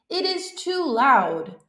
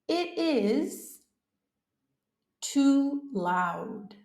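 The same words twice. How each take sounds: First: It is said at a normal speed. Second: It is said slowly.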